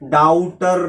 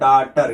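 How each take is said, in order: First: The first vowel is an 'ow' glide. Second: The first vowel is a plain 'aw' sound. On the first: The speaker calls it wrong. "डाउटर नहीं पढ़ेंगे" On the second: The speaker calls it right. "इसे क्या पढ़ेंगे? डाटर।"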